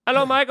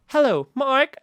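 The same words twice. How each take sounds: First: Mock accented tech-support greeting, H dropped; put-on accent without the H; imitated accent. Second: Imitated supervisor's accent, only slipping out; polished greeting with a trace of accent; mock professional accent, H pronounced; slight professional accent. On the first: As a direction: imitate a call-centre agent's accent. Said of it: "she found her H". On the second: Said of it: "professional accent where you just hear it, uh, uh, very occasionally".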